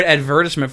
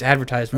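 First: "advertisement" stressed on VER, with a short tis; British pronunciation. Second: "advertisement" with a long TIZE syllable; American pronunciation. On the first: Friend recalling a word first heard, British pronunciation. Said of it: "when I heard the word advertisement". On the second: Friend correcting the word they heard, American pronunciation. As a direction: say "advertisement" as ad-ver-TIZE-ment. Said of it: "No, it's advertisement". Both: Shown as a demonstration.

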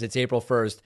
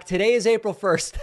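First: Said in the usual way. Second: High, loud call to the next room; calling back. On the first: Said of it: "Jill immediately knows what's going on and says". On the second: Retold or imitated. Wife calls back to husband in another room, high loud call. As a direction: call it back through the house, a touch amused. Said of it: "And I called back".

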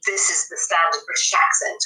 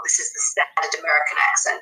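First: Standard British accent. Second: Standard American accent. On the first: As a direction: demonstrate standard British English. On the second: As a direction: demonstrate standard American English, a touch lower. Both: Shown as a demonstration.

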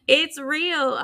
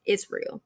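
First: Laughing, higher and brighter. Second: Whispered, drained and honest; tired whisper. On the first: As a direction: say it through a laugh. Repeats while laughing. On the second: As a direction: breathe it out, worn out. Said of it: "if you hear the tiredness in my voice". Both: Real, not acted.

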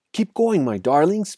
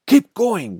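First: High, urgent urging, lightly acted panting; panted. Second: High, loud shout. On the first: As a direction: urge the family on, short of breath. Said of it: "panted Mister Fox". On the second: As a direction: bellow an order to the other drivers. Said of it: "the fat Boggis shouted". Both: A narrator's reading.

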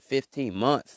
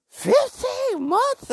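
First: Said in the usual way. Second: Very high, loud, drawn-out outcry; shocked disbelief. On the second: Retold or imitated. Podcaster repeats how long she was cheated on, shocked. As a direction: stretch it out in squealing mock shock.

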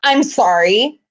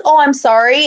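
First: Unbothered mock apology; condescending apology. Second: Mock sincere apology, louder; genuine-sounding apology. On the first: Guest relations lady to a complaining fan, condescending. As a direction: imitate an apology that isn't meant. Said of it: "she was so condescending". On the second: Guest relations apology as it should have been, sincere. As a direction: imitate an apology that is meant. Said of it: "it wasn't like".

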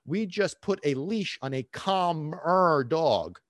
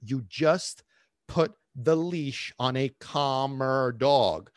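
First: "calmer" stretched out slowly; slow the line, drawing out "calmer"; emphasis on CALMER. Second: Slow, word by word, pausing before "put" and stretching "calmer"; deliberate repeat. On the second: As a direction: spell it out slowly with pauses, "calmer" drawn out. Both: Shown as a demonstration. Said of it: "let me repeat that".

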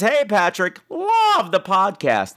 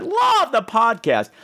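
First: "love the podcast" stretched slow and high; slow, drawn-out high "love the podcast"; all caps reading. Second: "Love the podcast" slow, high, each word drawn out; slow, drawn-out emphatic "Love the podcast"; all caps again. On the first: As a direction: read it like it's shouted in caps. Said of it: "That was all in caps". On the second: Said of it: "that's why I said it like that". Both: Retold or imitated.

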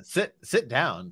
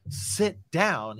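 First: Slow, polite invitation; understated courtesy, drawn out; mildly polite. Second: Higher-pitched, read-aloud mock wail; hammed-up upset without added volume; mild wail. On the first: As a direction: offer it gently and slowly, with mild politeness. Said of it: "said Harry politely". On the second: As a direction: wail it lightly, pitch raised. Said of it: "he wailed". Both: A narrator's reading.

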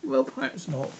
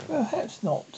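First: High-pitched, placating reply; conciliatory, well above usual pitch; soothing. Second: Mildly soothing, slightly raised voice; a touch of placating calm. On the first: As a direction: soothe in a raised, light pitch. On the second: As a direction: gently concede the point. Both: A narrator's reading. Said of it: "said Alice in a soothing tone".

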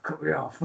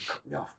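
First: Said in the usual way. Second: A hushed, voiceless whisper of a secret cue; retold whisper. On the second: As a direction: whisper it so the ref can't hear. Wrestler secretly cueing mid-match.

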